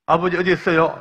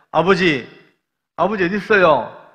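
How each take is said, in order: First: Loud search call, stress on 어디; calling out again. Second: Loud, higher searching call. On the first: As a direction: call out blindly, hitting 어디. Hooded son calling again. (애타게 다시 부르는 외침) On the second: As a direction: call out blindly for your father. Hooded son calling for father. (아버지를 애타게 부르는 큰 외침) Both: Retold or imitated.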